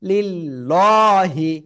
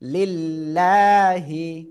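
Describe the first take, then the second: First: The L sound is heavy and thick. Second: The L sound is light and thin. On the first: The speaker calls it wrong. "ভুল পড়লে ভুল ধরতে হবে" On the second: The speaker calls it right. "এজন্য চিকুন করে পড়তে হবে"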